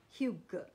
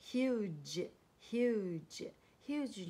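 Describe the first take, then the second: First: Huge misread with a hard g, "hyoo-guh"; wrong hard G. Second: Huge slowly, ending in a soft j; correct soft G. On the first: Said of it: "不要念成". (huge 错念成硬音 g 结尾"格") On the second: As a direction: draw out the U in huge, end on j. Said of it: "不要念成huge". (huge 慢慢念，结尾发 j 音) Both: Shown as a demonstration.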